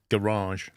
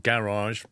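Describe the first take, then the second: First: It is said with an American pronunciation. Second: It is said with a British pronunciation. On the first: "in the States you say garage" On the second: "we either say it as garage"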